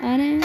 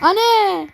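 First: Said in the usual way. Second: Calling out. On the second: Real, not acted. Calling for mom in game.

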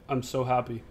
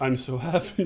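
First: Imitated numb, low-key statement; deadpan. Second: Low, drained imitation of happiness; deadpan. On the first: Answering a friend who asked about excitement, deadpan. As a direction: say it lower, with no excitement at all. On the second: Showing friend how the win was announced, deadpan. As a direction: recite it emptily, lower than usual. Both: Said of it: "Like, just deadpan".

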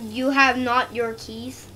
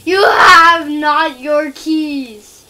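First: Said in the usual way. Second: Loud, very slow, drawn-out shout; mock proclamation. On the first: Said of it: "is that word?". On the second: Player taunting the groundskeeper over keys, in a mock shout. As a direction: bellow it word by word, stretched out.

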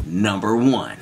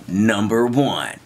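The two takes are said the same way.

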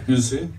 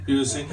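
First: Said in the usual way. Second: Softer repeat. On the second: Shown as a demonstration. Repeating the question to the crowd, softer. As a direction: drop the volume on the second "You see?".

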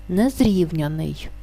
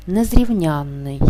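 First: Незрівняний with the stress on рів, not on ян; slow незрівняний, stressed on рів; stress off the suffix. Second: Незрівнянний with the stress on ян and a long нн; slow незрівнянний, stressed late, on ян; stress on suffix ян. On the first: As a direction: stretch рів in незрівняний, single short н after unstressed ян. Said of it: "наголос падає не на суфікс". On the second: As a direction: stretch the stressed ян in незрівнянний, slowly. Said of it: "знаходиться під наголосом". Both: Shown as a demonstration.

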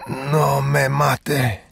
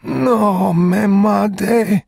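First: Very slow, higher, wheezed Spanish plea; wheezing plea. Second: Very slow, much higher, louder crying plea; desperate plea. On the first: Shot man wheezing at Chigurh to spare him, slow and higher. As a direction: breathe the words out like a dying man. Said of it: "he wheezed". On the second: Dying man crying out to Chigurh, much higher and louder. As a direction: cry out the plea as if begging for life. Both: Acted.

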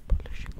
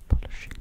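The two takes are said the same way.

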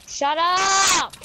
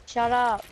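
First: High, stretched shout; exasperated real shout; drawn-out yell. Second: Said in the usual way. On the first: Real, not acted. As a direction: yell it long to silence someone. Repeatedly yelling at someone to shut up.

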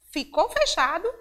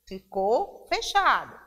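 First: Ficou fechado rising high at the end, as a question; louder, higher teacher's quiz question on Ficou fechado; checking question. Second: Ficou fechado falling at the end, as a firm answer; loud teacher's answer, Ficou fechado with a falling close; confirming answer. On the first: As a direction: ask Ficou fechado loudly, pitch lifting on fechado. Teacher asks, then answers herself. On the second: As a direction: confirm Ficou fechado loudly, pitch dropping on fechado. Teacher answers her own question. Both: Shown as a demonstration.

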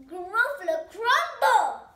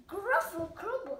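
First: High, loud and slow, drawn out; triumphant announcement. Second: Higher, louder, quick alarmed repeat; alarmed echo. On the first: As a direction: boom it out to scare the gruffalo. Mouse scares the gruffalo. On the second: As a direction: blurt it back in shock. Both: Acted.

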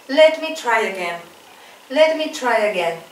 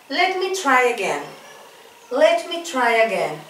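Both takes have the same delivery.

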